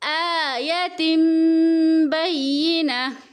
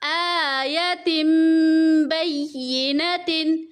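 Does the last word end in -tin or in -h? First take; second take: -h; -tin. First: The last word ends with a soft h sound. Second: The last word ends with a full -tin ending. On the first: The reader stops at this word. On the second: The reader carries on without stopping.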